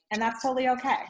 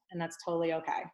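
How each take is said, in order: First: Said in the usual way. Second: Softer repeat. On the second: Shown as a demonstration. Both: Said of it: "it could be like".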